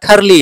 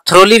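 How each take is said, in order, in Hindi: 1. शब्द 'thur' ध्वनि से शुरू होता है। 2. शब्द 'thro' ध्वनि से शुरू होता है। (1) "पर एक्चुअल प्रोनाउंस इसका थरली है" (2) "आप थ्रोली भी कर सकते हैं"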